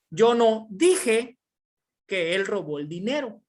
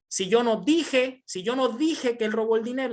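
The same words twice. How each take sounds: First: "no dije" lento y fuerte; énfasis en NO. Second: "dije" marcado y alto; énfasis en dije. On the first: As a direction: remarca "Yo no dije" despacio y alto. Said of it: "mismas palabras con diferente tono de voz". (acento enfático en "no dije") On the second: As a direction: subraya "dije" al explicar. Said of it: "Entonces, ¿qué hiciste?". (acento en "dije") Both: Shown as a demonstration.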